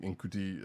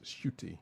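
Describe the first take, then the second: First: The name begins with a separate 'n' sound. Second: The name begins with a blended 'sh' sound. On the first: The speaker calls it wrong. "I did not know it because I was saying Nkuti" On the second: The speaker calls it right. "It's pronounced shooty"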